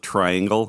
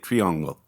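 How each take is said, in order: First: Said with an English pronunciation. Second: Said with a French pronunciation. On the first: "everybody calls it triangle" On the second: "the French would say it triangle"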